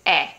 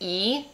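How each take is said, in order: First: The letter is said like Italian 'eh'. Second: The letter is said like English 'ee'. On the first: The speaker calls it right. "this is E" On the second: The speaker calls it wrong. "Notice this isn't said E"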